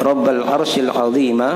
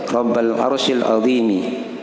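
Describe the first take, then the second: First: The last word ends with an 'a' vowel. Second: The last word ends with an 'i' vowel. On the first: Great describes God. "bisa juga dibaca seperti itu di fathah" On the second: Great describes the throne. "Itu kalau dibaca kasrah ya"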